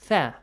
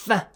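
First: The sound is said softly and lightly. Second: The sound is said forcefully and hard. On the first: The speaker calls it right. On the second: The speaker calls it wrong. "firmly do not pronounce the sound"

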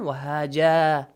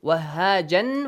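First: The word ends with a long a vowel. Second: The word ends with an n sound.

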